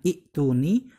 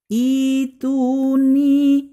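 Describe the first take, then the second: First: A short first vowel is followed by a glottal catch. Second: The first vowel is long with no glottal catch. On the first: The speaker calls it wrong. "cara bacanya bukan i'tuni" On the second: The speaker calls it right. "hamzah wasolnya yang berharaf kasroh itu dibaca panjang dua harokat"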